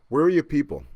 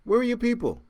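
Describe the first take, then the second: First: Said in the usual way. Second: "Where" pitched much higher, exasperated emphasis; stress on Where. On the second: Acted. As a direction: push "Where are your people?" up high in disbelief. Rhetorical question asked twice.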